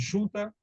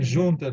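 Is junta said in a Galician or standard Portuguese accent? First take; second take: Galician; standard. First: The J is said with a heavy sh-like sound. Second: The J is said with a standard, lighter sound. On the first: "é mais carregar no X" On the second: "em vez de dizerem"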